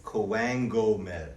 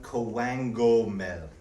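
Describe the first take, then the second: First: Coangomel, repeated slowly with a falling end; slow sounded-out word. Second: Coangomel, slowly, a hard K then a G-like middle; slow sounded-out word. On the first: Teacher repeats the word slowly for students. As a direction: say Coangomel again, deliberately slow. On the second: Teacher sounds out the word very slowly for students. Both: Shown as a demonstration. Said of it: "So if you were to sound".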